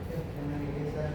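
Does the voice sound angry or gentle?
gentle. It is said in a gentle tone. The speaker is asking nicely. "tapi kita menggunakan kata yang bagus seperti"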